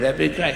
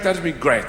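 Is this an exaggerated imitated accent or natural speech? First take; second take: exaggerated; natural. First: Said in an exaggerated, mocking Irish accent. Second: Said in a natural, unexaggerated Irish way. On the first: An English person is impersonating the Irish speaker. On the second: The speaker says it in his own voice.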